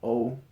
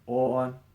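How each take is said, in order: First: The vowel sounds like English 'oh'. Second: The vowel sounds close to 'or'. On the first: The speaker calls it wrong. "not O" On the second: The speaker calls it right. "it's more O, almost like a or"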